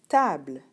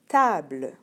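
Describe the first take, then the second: The two takes are said the same way.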